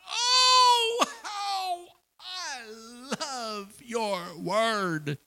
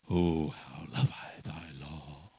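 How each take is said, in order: First: It is said with strong passion. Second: It is said in a dull, dreary way.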